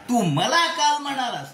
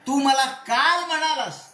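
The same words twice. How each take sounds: First: The stress falls on the word मला. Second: The stress falls on the word काल. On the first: You said it to me, not to anyone else. "दुसऱ्या कोणाला नाही, मला म्हणलास" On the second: You said it yesterday, not on another day. "परवा तेरवा नाही, काल म्हणलास"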